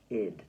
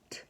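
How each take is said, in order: First: The ending is sounded as a full 'id' syllable. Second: The ending is sounded as a short 't'. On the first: The speaker calls it wrong. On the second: The speaker calls it right.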